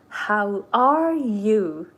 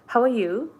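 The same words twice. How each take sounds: First: It is said slowly, with little energy. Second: It is said quickly, with flowing energy. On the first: The speaker calls it wrong. "no one talks like textbook" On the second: The speaker calls it right. "It's like so fast"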